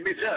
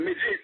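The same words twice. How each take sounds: First: Midget sung out much higher, ending in an open a sound. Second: Said in the usual way. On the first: Shown as a demonstration. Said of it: "Instead of midget". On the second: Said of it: "you gotta say midget".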